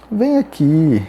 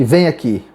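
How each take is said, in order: First: "Vem aqui" pitched up on "Vem", then falling; contrasting intonation. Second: "Vem aqui" short, with a low falling tune; contrasting intonation. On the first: Teacher showing intonation, "Vem aqui" with a wide falling tune. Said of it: "é a entonação". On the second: Teacher contrasting intonation, "Vem aqui" brief and low-falling. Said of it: "é diferente de". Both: Shown as a demonstration.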